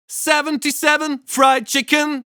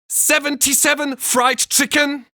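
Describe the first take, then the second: First: The hissing consonants are gentle and controlled. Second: The hissing consonants are exaggerated and harsh.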